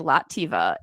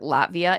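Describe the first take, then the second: First: An extra vowel comes between the t and v. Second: The v sound comes right after the t. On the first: The speaker calls it wrong. "It'll still say Lativa, and I don't know why" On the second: The speaker calls it right. "You know how many times I practice this on the regular Latvia"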